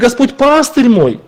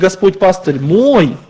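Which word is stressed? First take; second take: пастырь; мой. First: The stress falls on the word пастырь. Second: The stress falls on the word мой. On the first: He is a shepherd rather than a judge or tormentor. "Он пастырь наш, а не судья" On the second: He is mine and not someone else's. "Он мой, а не чей-то"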